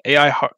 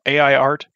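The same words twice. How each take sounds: First: Stray h creeping into "har-"; "har-" said with an added h, broken off; slipped pronunciation. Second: Said in the usual way. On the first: Real, not acted. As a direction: stumble on "har-" with a breathy h in front, then cut off. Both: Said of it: "There we go".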